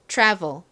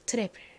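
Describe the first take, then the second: First: It is said the English way, t near ch. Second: It is said with Korean-style pronunciation. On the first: "이 t에 치읓 소리를 살짝 섞어서 발음을 해보겠습니다" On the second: "한국식으로 이 단어를 읽으면 트래블이 됩니다"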